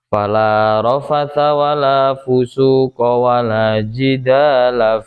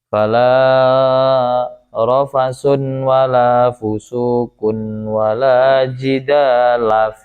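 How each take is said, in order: First: All three nouns end in -a. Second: The first two end in -un, the third in -a. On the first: "dibaca fathah semuanya" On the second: "dibaca rofa dua lafaz yang awal, yang ketiga dimabnikan fathah"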